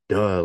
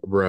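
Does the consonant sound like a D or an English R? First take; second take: D; English R. First: The consonant sounds like a D. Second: The consonant is an English-style R sound. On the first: The speaker calls it right. "they have like a D sound to them" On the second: The speaker calls it wrong. "like the R, like how English like pronounces it"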